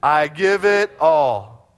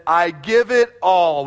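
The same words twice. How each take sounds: First: I give it all, slower still and loud, full conviction; really mean it this time, slow and strong; said better. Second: I give it all, slow and loud, each word weighted; emphatic declaration. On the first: Pastor urging a better response, slow loud declaration. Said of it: "you can say it a little better than that". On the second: Pastor leading the congregation, slow loud proclamation. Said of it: "Will you say that with me?". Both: Shown as a demonstration.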